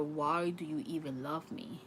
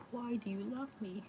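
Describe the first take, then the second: First: Said in the usual way. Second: Why raised higher and spoken softer; higher, softer plea. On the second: Retold or imitated. Reader voices the spirit asking his wife, higher soft plea. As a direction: lift it up and pull back the volume, pleading. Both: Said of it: "That's what he's saying".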